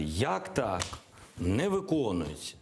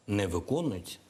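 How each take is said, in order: First: Mildly raised, indignant quoted protest; mock outcry. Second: Said in the usual way. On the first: President imitating Ukraine crying out at the door, mock outcry. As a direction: act out a half-hearted cry of complaint. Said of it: "і кричати". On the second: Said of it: "Я вважаю дуже просто".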